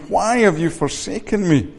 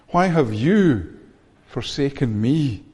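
First: WHY pitched up and leaned on, the rest falling away; stress on WHY. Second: YOU drawn out, a pause, then ME drawn out and falling; slow it down and lean on you, pause, then lean on me; stress on YOU and ME. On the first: Preacher examining Jesus' question from the cross, stress on Why. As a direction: hit the word Why, then let "have you forsaken me" fall. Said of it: "that why? Jesus is asking". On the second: Preacher repeating the cry for the congregation, stress on you and me. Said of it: "listen to the words again with a, another emphasis". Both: Shown as a demonstration.

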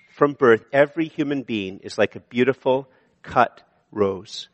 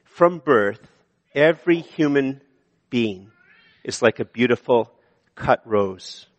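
First: Said in the usual way. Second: Slow measured reading. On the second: Shown as a demonstration. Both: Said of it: "Points are just to be a help".

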